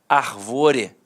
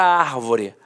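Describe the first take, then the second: First: The stress is on the second syllable. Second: The stress is on the first syllable. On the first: It is a form of the verb arvorar. "em que seria uma paroxítona terminada em E" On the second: It is the noun meaning tree. "E é uma proparoxítona"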